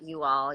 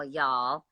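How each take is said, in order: First: Said in the usual way. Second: "y'all" as one clipped Southern word, quieter. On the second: Shown as a demonstration. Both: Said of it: "start talking with a Southern accent".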